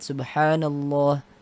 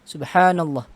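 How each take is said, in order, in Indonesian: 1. Vokal pada 'llah' dibaca panjang. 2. Vokal pada 'llah' dibaca pendek. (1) "Harusnya dipanjangkan sedikit" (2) "Ini kan tidak ada madnya"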